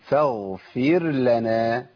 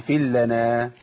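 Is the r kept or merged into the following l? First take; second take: kept; merged. First: The r is pronounced before the l. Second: The r is merged into the l. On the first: The speaker calls it right. "فاغفر لنا فير لنا" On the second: The speaker calls it wrong. "ما أقولش فيل لنا"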